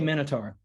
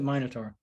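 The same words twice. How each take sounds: First: The word is said with a non-British pronunciation. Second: The word is said with a British pronunciation. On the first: "I say Minotaur" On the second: "the Brits pronounce it Minotaur"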